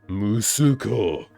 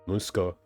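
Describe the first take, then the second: First: The middle u vowel is clearly pronounced. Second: The middle u vowel is dropped. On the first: The speaker is being dramatic, like giving a speech. "Unless you're like trying to be dramatic" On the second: The speaker is talking casually. "instead of just going like"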